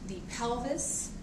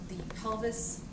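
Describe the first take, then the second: Both takes have the same delivery.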